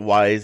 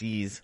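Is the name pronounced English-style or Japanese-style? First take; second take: English-style; Japanese-style. First: The name is said like the English word 'wise'. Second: The name is said with a Japanese pronunciation. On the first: This is how it was said in childhood. "I always called it Wise when I was younger" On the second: This is the original pronunciation. "it's Japanese pronunciation"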